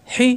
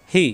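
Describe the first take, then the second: First: "হি" with a tight pharyngeal h; strong constricted h in "হি"; pressed throat ha. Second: "হি" with an open, easy h; no pressure on "হি"; light ha. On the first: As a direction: squeeze the onset of "হি". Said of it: "এটা লম্বা হা". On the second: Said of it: "এটা গোল হা". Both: Shown as a demonstration.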